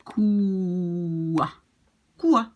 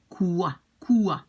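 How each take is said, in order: First: Long drawn "quoi" kua, then a short falling one; better quoi. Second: "quoi, quoi" starting on a rounded u, kuə. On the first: Teacher giving the best pronunciation of quoi. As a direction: stretch the first quoi, clip the second. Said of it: "even better would be". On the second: Teacher showing the u sound in quoi. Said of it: "It's more like an U". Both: Shown as a demonstration.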